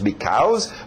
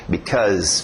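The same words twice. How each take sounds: First: The second syllable sounds like the word 'cows'. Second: The second syllable does not sound like 'cows'. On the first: The speaker calls it wrong. "verbo to be, ser, cows, vacas" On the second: The speaker calls it right. "Não"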